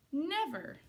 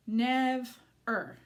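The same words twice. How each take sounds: First: Said in the usual way. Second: "Nev er" in two parts with a clear gap; syllable by syllable. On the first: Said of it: "They make the word never". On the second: Shown as a demonstration. Teacher putting two syllables together for children, split apart. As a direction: break it after "Nev", then "er". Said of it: "put the two syllables together".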